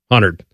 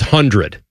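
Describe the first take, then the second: First: It is said fast, reduced to 'hunerd'. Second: It is said in full, with every sound. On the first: The speaker calls it wrong. "I said it real fast" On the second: The speaker calls it right. "the word is 100"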